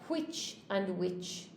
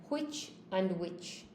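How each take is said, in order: Both takes have the same delivery.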